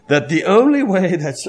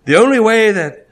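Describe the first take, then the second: First: Said in the usual way. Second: The only way that, pushed out louder and higher on "only"; preacher hammering "only"; emphatic. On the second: Shown as a demonstration. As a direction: lean hard on "only" to drive the point home. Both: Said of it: "repeats phrase with emphasis".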